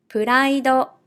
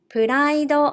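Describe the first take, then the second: First: It is said with Japanese katakana pronunciation. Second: The same.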